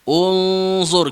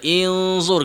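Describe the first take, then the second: First: The word begins with a u vowel. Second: The word begins with an i vowel. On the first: The speaker calls it right. "kita baca unzur" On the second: The speaker calls it wrong. "kita tak baca inzur"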